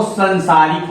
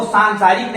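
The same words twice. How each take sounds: First: संसारिक with a short first vowel; corrected pronunciation. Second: सांसारिक with a long first aa; rejected pronunciation. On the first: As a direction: say संसारिक as "san-saa-rik". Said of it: "वो संसारिक होता है". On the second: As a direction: say सांसारिक as "saan-saa-rik". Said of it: "वो सांसारिक नहीं होता". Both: Shown as a demonstration.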